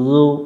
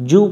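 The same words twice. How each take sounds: First: The first consonant is soft, from the tongue tip. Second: The first consonant is hard, a buzzing z. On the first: The speaker calls it right. "জিহব্বার আগা থেকে নরম করে" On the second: The speaker calls it wrong. "জু পড়া যাবে না"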